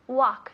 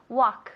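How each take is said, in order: First: The L sound is silent. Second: The same.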